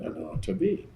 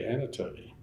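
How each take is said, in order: First: The name begins with the sounds 'Anoa'. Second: The name begins with the sounds 'Ana'. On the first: This is how the name's owner says it. The speaker calls it right. "I always pronounce it Anoa Tabi" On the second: This is how most people say the name. The speaker calls it wrong. "people always say Anatobi"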